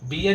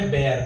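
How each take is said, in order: First: The vowel sounds like in 'beer'. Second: The vowel sounds like in 'bare'. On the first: The speaker calls it wrong. "बियर नहीं बोलते" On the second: The speaker calls it right.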